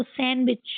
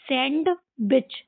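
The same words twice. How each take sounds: First: सैंडविच said as sanwich, d dropped; right way. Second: सैंडविच with the d sounded; the reading pupils should avoid; wrong way. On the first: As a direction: silent d, san-wich. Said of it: "डी को silent करके इसको सैंडविच". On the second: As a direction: show the mistake, d pronounced. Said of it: "सैंडविच नहीं पढ़ेंगे हम इसको". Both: Shown as a demonstration.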